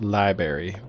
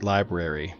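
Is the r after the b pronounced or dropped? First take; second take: dropped; pronounced. First: The r after the b is dropped. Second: The r after the b is pronounced. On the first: The speaker calls it wrong. "and not library" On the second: The speaker calls it right. "the word library is pronounced library"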